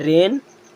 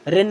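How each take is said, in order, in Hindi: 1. स्वर थोड़ा लंबा रखा जाता है। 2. स्वर छोटा बोला जाता है। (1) "ए की मात्रा उसमें थोड़ा सा हमें टाइम देना है" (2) "जैसे रेन नहीं बोलना है"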